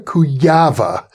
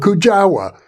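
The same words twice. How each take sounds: First: The name is said with Polish pronunciation. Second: The name is said with English pronunciation. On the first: This is how the name is said in its home language. The speaker calls it right. "that's the Polish pronunciation" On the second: This is how foreign speakers tend to say the name. The speaker calls it wrong. "mispronounced or pronounced otherwise by English speakers"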